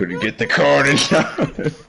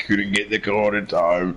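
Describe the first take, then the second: First: Laughing. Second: Said in the usual way. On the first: Real, not acted. Laughing repeat of a line.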